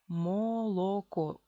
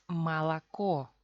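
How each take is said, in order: First: The first two vowels sound like O. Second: The first two vowels sound like A. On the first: This is the careful reading that follows the spelling. "Oficialmente, así se lee, sin reducción" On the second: This is how Russians actually say it in speech. "pero pronunciamos malacó"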